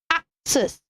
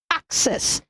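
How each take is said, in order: First: The double C has a K sound. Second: The same.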